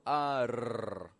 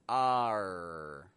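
First: The tongue taps the roof of the mouth. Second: The tongue stays off the roof of the mouth. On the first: The speaker calls it wrong. "But Eric does not touch the roof of his mouth. He doesn't go R" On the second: The speaker calls it right. "but R. Big difference between Spanish and English"

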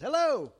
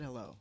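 First: The greeting is drawn out in an odd, exaggerated way. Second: The greeting is said plainly and normally. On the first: The speaker calls it wrong. "I made it weird" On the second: The speaker calls it right. "They just said hello"

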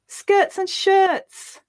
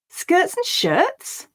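First: It is spoken with happiness. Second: It is spoken with surprise. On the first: "Now we'll say it happily" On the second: "Now we'll say it with surprise"

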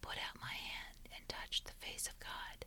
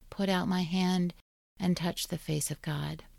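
First: It is whispered. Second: It is said in a normal voice.

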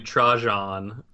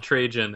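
First: The name has a Spanish-style pronunciation. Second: The name has an American-style pronunciation. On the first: This is the name's original pronunciation. "so but it's like really Trajan" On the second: This is how the name is said in America. "or Trajan in America"

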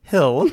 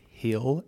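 First: Hill is said with a standard short vowel. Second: Hill is said with a Southern vowel, like heel.

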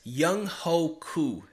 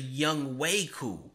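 First: The second syllable sounds like "ho". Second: The second syllable sounds like "way". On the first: The speaker calls it wrong. "that's not right" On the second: The speaker calls it right. "His name is actually"

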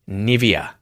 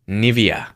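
Both takes have the same delivery.

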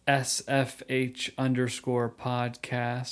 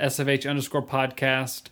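First: It is said slowly. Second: It is said at normal speed.

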